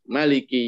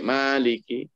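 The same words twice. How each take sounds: First: The first vowel is said short. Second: The first vowel is said long.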